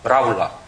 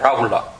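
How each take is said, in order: The two takes are said the same way.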